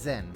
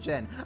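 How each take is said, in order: First: The name begins with a z sound. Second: The name begins with a j sound. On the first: This is how the speaker reads the spelling. "I see a Z, I will say it as a Z" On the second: This is how the characters say it. "they pronounce it as Jin"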